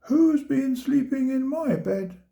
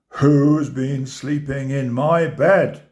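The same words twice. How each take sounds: First: It is said in a medium-sized voice. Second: It is roared in a big, deep voice.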